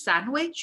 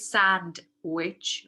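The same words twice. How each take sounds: First: The d sound is dropped. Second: The d sound is pronounced. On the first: "sometimes you hear people drop the d. So you say sandwich" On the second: "You don't say sandwich"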